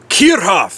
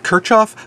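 First: The name is said with a German pronunciation. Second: The name is said with an English pronunciation. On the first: "in the melodious tones of the tongue of his fatherland" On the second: "you probably heard his name pronounced as"

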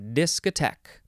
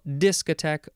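First: The stress is on the last syllable. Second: The stress is on the first syllable. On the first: "or the last syllable" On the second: "You can emphasize the first syllable"

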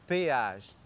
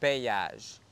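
First: The two vowels meet with no y glide. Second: A y glide links the two vowels. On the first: The speaker calls it right. "On dit péage" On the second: The speaker calls it wrong. "pas payage"

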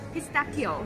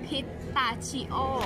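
First: The 'cchio' is said with a k sound. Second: The 'cchio' is said with a ch sound. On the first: The speaker calls it right. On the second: The speaker calls it wrong.

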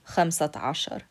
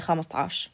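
First: Both words are said fully and separately. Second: The words are squeezed into one short word. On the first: This is the standard form of fifteen. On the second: This is the everyday dialect form of fifteen.

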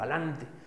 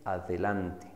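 First: The middle 'de' syllable is left out. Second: The middle 'de' syllable is fully pronounced. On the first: The speaker calls it wrong. "caemos en el error" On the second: The speaker calls it right. "La forma correcta sería decir adelante"

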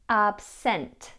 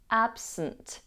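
First: The second vowel is a full, unreduced vowel. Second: The second vowel is a reduced schwa. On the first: The speaker calls it wrong. "rather than absent" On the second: The speaker calls it right. "The second vowel in the word absent is pronounced as a schwa. So we have absent"

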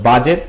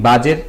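The two takes are said the same way.

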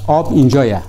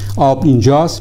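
First: The phrase ends with the sound ye. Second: The phrase ends with the sound st. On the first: This is how it is said in the Malayeri dialect. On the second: This is the usual form.

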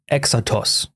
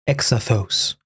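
First: The middle consonant is a plain t sound. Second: The middle consonant is a th sound.

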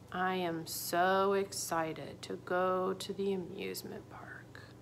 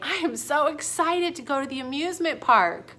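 First: The voice sounds flat and unexcited. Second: The voice sounds lively and excited.

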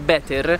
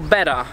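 First: The word ends with an 'er' sound. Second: The word ends with an 'ah' sound. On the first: The speaker calls it wrong. "quello che normalmente la gente dice better, ok, che suona schifosissimo" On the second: The speaker calls it right. "in inglese britannico si dice better"

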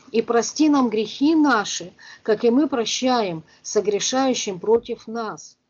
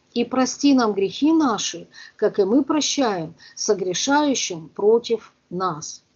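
Both takes have the same delivery.

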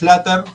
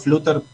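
First: The word is pronounced with English-style vowels. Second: The word is pronounced with Spanish-style vowels. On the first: The speaker calls it right. "bien pronunciado" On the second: The speaker calls it wrong. "mal pronunciado"

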